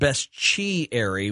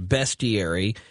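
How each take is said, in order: First: The S and T merge into a CH sound. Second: The S and T are said as separate sounds. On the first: "where the S and the T form the CH sound" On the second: "I had always been told the word was pronounced bestiary"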